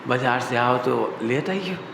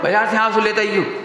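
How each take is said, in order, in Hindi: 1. यह धीरे और मीठे स्वर में बोला गया है। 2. यह जल्दी और हड़बड़ी में बोला गया है। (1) "इतने अच्छे से" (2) "ऐसे ऐसे ना"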